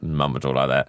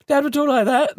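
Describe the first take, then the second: First: Much lower than the dad's voice, a mock voice for mum; mum's voice. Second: Much higher and a little louder, a mock voice for dad; dad's voice. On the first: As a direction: drop the mum down low as a send-up. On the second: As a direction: pitch the dad up high as a send-up. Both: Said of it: "a bit kind of".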